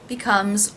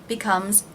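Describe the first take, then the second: The two takes are said the same way.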